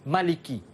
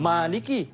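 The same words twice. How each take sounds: First: The first vowel is short and quick. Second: The first vowel is held long. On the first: The alif is dropped in the reading. "hazaf alif maka ah, kita buang alif itu tadi. Jadi kita baca cepat" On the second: The alif is kept in the reading. "kalau isbat alif kita baca macam biasalah"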